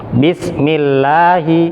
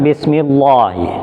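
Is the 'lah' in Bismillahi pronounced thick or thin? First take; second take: thin; thick. First: The 'lah' is light, with a clear A vowel. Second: The 'lah' is heavy and full, darkened. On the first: The speaker calls it right. "dibaca tipis. Vokalnya A" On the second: The speaker calls it wrong. "bukan Bismillahi"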